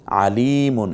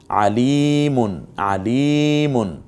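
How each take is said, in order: First: Said in the usual way. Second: আলিমুন very slowly, লি held long. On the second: Shown as a demonstration. Quran teacher drawing out the vowel for students. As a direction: stretch লি in আলিমুন. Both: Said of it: "লিতে টানলাম কেন?".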